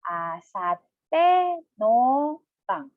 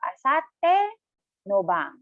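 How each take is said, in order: First: It is said slowly, syllable by syllable. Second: It is said at a normal, connected speed.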